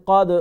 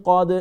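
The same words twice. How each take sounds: No difference in how they are said.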